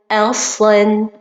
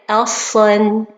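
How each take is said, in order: The two takes are said the same way.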